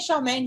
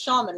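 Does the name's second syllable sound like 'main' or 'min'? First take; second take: main; min. First: The second syllable sounds like 'main'. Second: The second syllable sounds like 'min'. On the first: This is the speaker's own version. "I say Charmaine" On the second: This is the other host's version. "he says Charmin, like the toilet paper"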